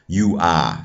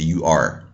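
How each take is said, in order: First: The final r sound is dropped. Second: The final r sound is pronounced. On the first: "in the New Yorker varieties, they say you ah" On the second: "as opposed to you are"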